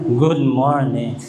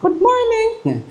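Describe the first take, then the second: First: Much lower, slow good morning in a booming bass; low, slow bass mock greeting; third man's voice. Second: High, slow and comic good morning in a squeaky voice; high falsetto mock greeting; second man's voice. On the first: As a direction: play a very deep-voiced man greeting. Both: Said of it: "iba-iba yung boses".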